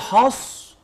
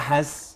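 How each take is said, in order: First: The s sound is heavy and full. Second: The s sound is light and thin. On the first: The speaker calls it wrong. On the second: The speaker calls it right.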